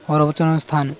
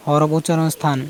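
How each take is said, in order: Both takes have the same delivery.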